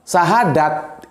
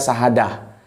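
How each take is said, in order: First: The word ends with a t sound. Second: The word ends with an h sound. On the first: The speaker calls it wrong. "Sahadat itu sebetulnya salah" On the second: The speaker calls it right. "maka dia harus dibaca sahadah. Jadi matinya ha"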